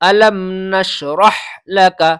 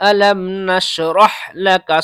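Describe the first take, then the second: First: The final h sound of nashrah is pronounced. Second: The final h sound of nashrah is pronounced.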